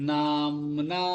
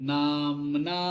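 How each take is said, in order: No difference in how they are said.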